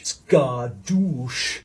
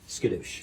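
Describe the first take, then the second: First: Said in the usual way. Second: Quiet. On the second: Pretend. Catchphrase said under breath.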